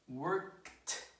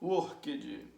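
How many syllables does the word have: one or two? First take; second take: one; two. First: The word is said as one syllable. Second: The word is said with an extra second syllable. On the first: The speaker calls it right. "one syllable, no extra syllable" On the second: The speaker calls it wrong. "there is no workage"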